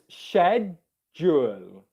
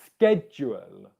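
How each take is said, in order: First: The word begins with an sh sound. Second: The word begins with a k sound. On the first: "the way that you would pronounce it in British English pronunciation is sh" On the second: "pronounced with a K sound"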